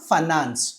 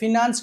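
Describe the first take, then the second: First: The first syllable has a weak 'uh' sound. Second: The first syllable has a short 'i' sound. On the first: The speaker calls it right. "ఫైనాన్స్ ఆర్ ఫనాన్స్" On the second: The speaker calls it wrong. "ఫినాన్స్ కాదు"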